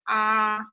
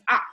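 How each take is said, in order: First: The pitch stays high and level. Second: The pitch falls sharply from high. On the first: "First tone is high and flat" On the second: "like you're feeling hurt, painful"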